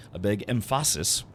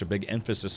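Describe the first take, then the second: First: "emphasis" said as em-FASS-is; wrong syllable stressed. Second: Said in the usual way. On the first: Shown as a demonstration. Player joking about putting emphasis wrong, "emphasis" stressed on FAH. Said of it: "put the wrong emphasis on the wrong syllable". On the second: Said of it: "put the wrong emphasis".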